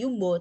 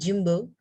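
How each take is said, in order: First: The word begins with a y sound. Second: The word begins with a j sound. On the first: The speaker calls it wrong. "Enggak yumbo" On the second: The speaker calls it right. "gini bacanya jadi jumbo"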